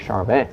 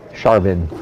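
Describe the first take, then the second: First: The name is said with a French pronunciation. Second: The name is said with an American pronunciation. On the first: It is the proper original pronunciation. "if I was really going to pronounce it" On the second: It is adapted for American listeners. "for you Yanks"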